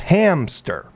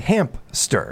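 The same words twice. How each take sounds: First: No 'p' sound comes before the 's'. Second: A 'p' sound comes before the 's'. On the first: The speaker calls it right. "It's hamster. There's no P" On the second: The speaker calls it wrong. "A lot of people say hamster"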